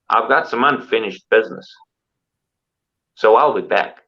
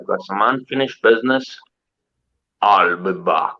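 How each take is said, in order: First: It is said in his normal voice. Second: It is said as a Terminator impression.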